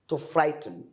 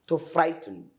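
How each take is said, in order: The two takes are said the same way.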